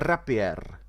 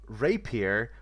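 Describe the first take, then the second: First: It is said with a Czech accent. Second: It is said with an English accent.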